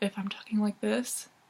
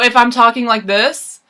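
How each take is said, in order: First: The voice sounds soft and timid. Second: The voice sounds strong and forceful. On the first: "I can seem a little timid" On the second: "I can seem a little forceful"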